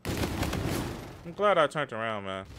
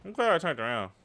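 First: Slow relieved repeat. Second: Said in the usual way. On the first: Real, not acted. Gamer repeating his lucky turn, slow and relieved. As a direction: stretch out I'm glad, slow and savoring.

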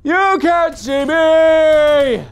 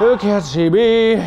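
First: Extremely slow, high, held-out wail; very high drawn-out taunt. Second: Slow, drawn-out taunting call. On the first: Player taunting an enemy, very high drawn-out wail. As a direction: wail it high, holding the vowels. Taunting, louder and higher take. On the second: Player sneaking behind an enemy, slow taunt. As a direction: stretch out the taunt. Taunting, building over three takes. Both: Pretend.

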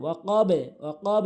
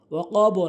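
First: ওয়াকাব with a light downward bounce on b; qalqala. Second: ওয়াকাব ending in a rounded "bo"; wrong ending. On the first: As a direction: bounce the end of ওয়াকাব without rounding. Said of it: "নিচের দিকে". (ওয়াকাব শেষে নিচের দিকে ধাক্কা) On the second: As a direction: add an o after ওয়াকাব. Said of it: "না কিন্তু". (ওয়াকাব শেষে "বো" করে) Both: Shown as a demonstration.

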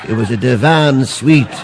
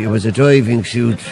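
First: "divan" said slowly, stress on -van; "divan suite" spoken slow and clear; correct word. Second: "diving" said as diving, like dive; "diving" with a long i, diving suit; wrong word. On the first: Shown as a demonstration. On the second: Retold or imitated. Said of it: "God, you're thick. It was a divan suite".

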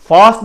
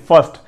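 First: فاسٹ with an open long "aa"; فاسٹ like the word for quick; wrong vowel demonstrated. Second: فاسٹ with a short neutral vowel, "fust"; corrected vowel. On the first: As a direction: say فاسٹ as "faast", pitched up. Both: Shown as a demonstration. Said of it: "فاسٹ نہیں".

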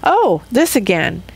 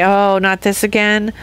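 First: Open, accepting lift on this; greeting the same thing with gladness; glad acceptance. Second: Resigned, fed-up sigh of a line; dreading the same thing again; weary complaint. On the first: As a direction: welcome it like an old friend. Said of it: "or I can say". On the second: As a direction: groan it out like a tired chore. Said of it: "I can make two choices". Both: Shown as a demonstration.

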